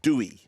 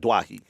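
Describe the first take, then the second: First: The name is said like 'dew-ee'. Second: The name is said like 'dwah-hee'. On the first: The name follows its family origins. The speaker calls it right. "the origins of the pronunciation Dewey" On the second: The name is treated as a Lebanese name. The speaker calls it wrong. "that's the way I said it without checking"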